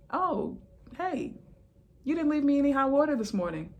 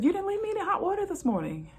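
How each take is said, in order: First: High, fast, mock-chummy retort; mock sassy reply. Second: Much higher, fast, sing-song repeat; mock sassy repeat. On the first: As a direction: play along sweetly to make a point. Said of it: "I'm like". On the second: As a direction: hammer the joke home, high and quick. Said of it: "I said".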